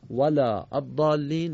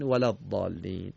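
First: ولا الضالین slower, long wælaː; slow recitation. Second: Said in the usual way. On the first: Shown as a demonstration. Scene: teacher recites example from Surah Hamd, slowly. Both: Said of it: "در سورهٔ حمد دو مورد هست".

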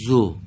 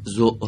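First: «زو» with a short u that ends open; correct short damma. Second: «زو» cut shut by a glottal stop; wrong closed ending. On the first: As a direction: let the vowel of «زو» end freely, no glottal stop. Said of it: "به این شکل باید بگیم". («زو» با ضمهٔ کوتاه و انتهای باز) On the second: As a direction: stop «زو» abruptly as if a hamza followed. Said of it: "آها، نگید زو". («زو» با انتهای بسته، مثل همزه) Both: Shown as a demonstration.

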